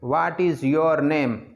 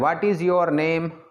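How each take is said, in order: The two takes are said the same way.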